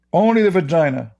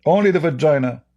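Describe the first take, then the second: No difference in how they are said.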